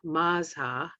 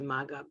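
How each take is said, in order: First: The middle consonant is a zh sound. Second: The middle consonant is a hard g. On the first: This is how the text says to pronounce it. "it says pronounce Mazha" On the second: This is how the speaker habitually says it. "I say Maga"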